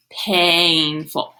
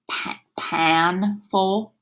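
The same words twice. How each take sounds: First: Painful, with a clear long A; long A sound. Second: Pa-, painful, slow whisper with a short a; wrong vowel, whispered. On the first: Teacher tries the long A sound on painful. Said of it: "Let's try the other one". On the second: Teacher whispers the wrong vowel in painful. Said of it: "We should flip that vowel sound". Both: Shown as a demonstration.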